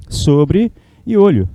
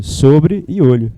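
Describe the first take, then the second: First: Sobre e olho, each word drawn out slowly; slow split words. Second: Sobre e olho, even slower and separated; slow split words. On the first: Teacher splitting sobrolho for students, slowly. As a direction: stretch sobre and olho apart. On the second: Teacher repeating the split for class, very slow. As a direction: drag out sobre, then olho. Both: Shown as a demonstration. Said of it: "Fala aí".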